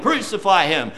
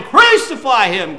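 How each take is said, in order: First: Said in the usual way. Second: A louder mock crowd call of crucify; "Crucify him" called out louder like the mob; preacher voicing the mob's cry, louder.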